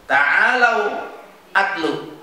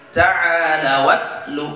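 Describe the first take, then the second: First: Said in the usual way. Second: Slow "Ta'alau atlu" as ta'ala-wat-lu; joined recitation. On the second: Shown as a demonstration. Teacher answers how to read it, slow and joined. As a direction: link w into a of "atlu", hamzah dropped. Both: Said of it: "Bagaimana bacanya?".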